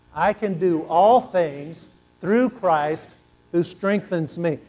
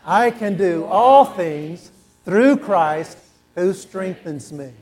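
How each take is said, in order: First: Call and response. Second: Slow, louder, believing every word; with conviction. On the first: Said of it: "say that with me". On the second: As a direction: proclaim it like you mean it. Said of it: "Now say it like you believe it". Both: Shown as a demonstration.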